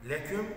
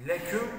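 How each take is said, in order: No difference in how they are said.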